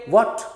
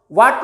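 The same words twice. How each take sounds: First: What with an open o, वॉट; correct what. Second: What said as वाट with a flat a; the wrong what, वाट with a. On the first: (what को वॉट बोलिए, गोल ओ के साथ) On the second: (what को वाट, गलत उच्चारण) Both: Shown as a demonstration. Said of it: "what नहीं बोलेंगे".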